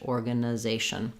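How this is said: It has a reduced vowel before '-zation'. "American English"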